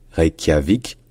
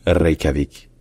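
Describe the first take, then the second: First: "Reykjavik" avec kya marqué, r français; séparer k et y dans "Reykjavik"; mauvaise prononciation. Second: "Reykjavik" avec r roulé, k palatal fondu; prononciation islandaise. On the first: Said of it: "Donc ce n'est pas Reykjavik". (« Reykjavik » dit réï-kya-vik) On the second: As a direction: rouler le r, adoucir le k de "Reykjavik". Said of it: "c'est Reykjavik". (« Reykjavik » à l'islandaise, r roulé) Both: Shown as a demonstration.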